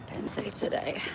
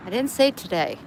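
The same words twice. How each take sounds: First: Breathy whisper, no voice; whispered repeat. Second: Said in the usual way. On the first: Shown as a demonstration. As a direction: whisper it back to yourself. Repeats line, then whispers it.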